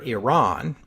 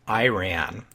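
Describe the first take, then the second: First: It is said close to the Persian pronunciation. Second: It is said in the American-style variant pronunciation. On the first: It follows how the people themselves say it. The speaker calls it right. "that's the pronunciation closest to how the Iranians say it" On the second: It can come across as ignorant or slighting. The speaker calls it wrong. "in the United States, you also hear the pronunciation Iran"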